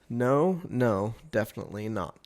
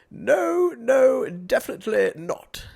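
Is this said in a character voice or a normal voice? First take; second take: normal; character. First: It is said in the speaker's own normal voice. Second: It is said in an old man's put-on voice.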